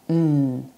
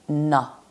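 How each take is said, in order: First: The consonant is said alone, with no vowel. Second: The consonant is followed by an added vowel. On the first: The speaker calls it right. "or n" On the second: The speaker calls it wrong. "not na"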